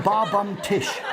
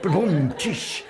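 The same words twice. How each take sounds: First: "Bar" pronounced like a pub bar, then "Bum Tish"; misread Bar Bum Tish. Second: Slow "Ba Bum Tish" with no R, like a drum rimshot; corrected Ba Bum Tish. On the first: Retold or imitated. Host repeating his own misreading of the fax, "Bar Bum Tish". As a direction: say "Bar Bum Tish" with a clear R in Bar, as if it were a name. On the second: Shown as a demonstration. Host correcting the joke's punchline, slow and careful. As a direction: spell out "Ba Bum Tish" slowly as the drum sound. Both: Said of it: "No, that's Ba Bum Tish".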